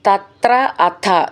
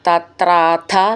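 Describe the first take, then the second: First: The two words are said separately. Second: The two words are merged into one.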